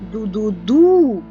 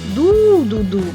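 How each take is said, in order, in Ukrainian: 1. Останній склад наголошений. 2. Перший склад наголошений. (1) "Бо ми виділяємо наголосом останній склад" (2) "виділяє інтонацією перший склад"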